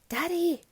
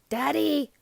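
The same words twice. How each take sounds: First: It is said very quietly. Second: It is said a little louder.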